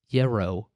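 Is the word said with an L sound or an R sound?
R sound. It is said with an R sound instead. The speaker calls it wrong.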